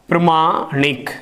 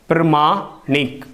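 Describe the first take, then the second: Both takes have the same delivery.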